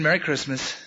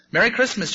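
First: Said in the usual way. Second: Higher-pitched, quick cheery call; chattering squirrels. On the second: A narrator's reading. Squirrels send the bunny off, chattering. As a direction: pipe it up like little squirrels. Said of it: "chattered the squirrels".

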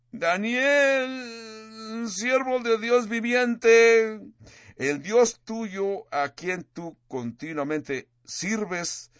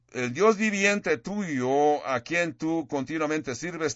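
First: High, slow, desperate cry into the lions' den; mournful lament. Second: Slow, somewhat higher echo of the king's mournful call; a gentle, slower retelling of the anguished cry; a hint of lament. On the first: Acted. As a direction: call out to Daniel in anguish, slowly and much higher. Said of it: "con voz triste, con voz de lamento, con una voz de desesperación". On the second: King's words quoted again.

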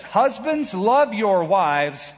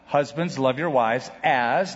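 First: Husbands opens high, then "love your wives" very slow with the weight on "love"; slow, plain order with no comparison after it; flat command. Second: Husbands, love your wives "as", the word "as" lifted and drawn out; slow, deliberate reading that hangs on "as"; stress on as. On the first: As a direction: read it as a blunt command that stops dead. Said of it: "If Paul would have just said this". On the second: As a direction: lean on "as" with a questioning rise. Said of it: "that's the first comparison". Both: Shown as a demonstration.

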